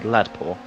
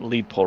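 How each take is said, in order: First: The first word has the vowel of 'lad'. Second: The first word has the vowel of 'lead'. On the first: The speaker calls it right. "not knowing it was meant to be lad poor" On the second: The speaker calls it wrong. "we were pronouncing it lead poor racing for the longest time"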